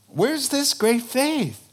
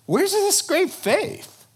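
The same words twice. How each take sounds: First: Said in the usual way. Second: High searching question. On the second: Shown as a demonstration.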